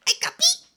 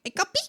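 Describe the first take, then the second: First: High, loud playful hey coffee; mock cheery hello repeated; cheerful greeting. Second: High, loud bright hey coffee; mock cheery hello to coffee; cheerful greeting. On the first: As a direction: sing out a hello to the cup. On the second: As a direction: greet your drink like an old friend. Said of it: "and I'm like".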